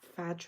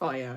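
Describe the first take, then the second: First: The name ends with a j sound. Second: The name ends with a yah sound. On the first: This is what most people say. The speaker calls it wrong. "everyone calls it" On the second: This is the proper way to say it. The speaker calls it right. "I think is the proper pronunciation"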